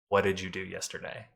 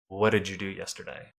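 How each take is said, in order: First: The D and Y merge into a J sound. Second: The D and Y merge into a J sound.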